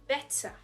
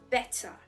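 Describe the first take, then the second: The two takes are said the same way.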